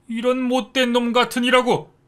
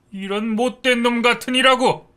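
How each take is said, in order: First: 같으니라고 yelled high and loud with a falling end; furious father. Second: 같으니라고 shouted high and loud, falling at the end; furious father. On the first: Father roaring at his son again, 같으니라고 high, loud, falling. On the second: Father damning his lying son, 같으니라고 yelled high and falling. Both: A narrator's reading. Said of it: "아버지가 아주 많이 화가 나셨답니다".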